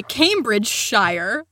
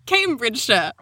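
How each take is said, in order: First: Cambridgeshire with a full American "shire" ending; Cambridgeshire, American style, last syllable fully voiced; American pronunciation. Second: Cambridgeshire in a British accent with a reduced "-shuh" ending; Cambridgeshire, would-be British, last syllable swallowed to "shuh"; attempted British accent. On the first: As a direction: say Cambridgeshire as spelt, ending like "shy-er". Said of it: "read them in my flat American monotone". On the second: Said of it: "do a terrible accent". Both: Shown as a demonstration.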